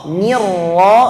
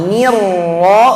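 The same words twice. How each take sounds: No difference in how they are said.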